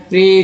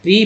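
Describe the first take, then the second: First: प्रे with an "ay" vowel; PRE said "pray". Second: प्री with a long "ee" vowel; PRE said "pree". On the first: Teacher showing second reading of PRE, प्रे as "pray". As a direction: say प्रे to rhyme with "day". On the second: Teacher showing first reading of PRE, प्री as "pree". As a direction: say प्री as in "prefix". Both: Shown as a demonstration. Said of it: "पीआरई को दो उच्चारण करते हैं".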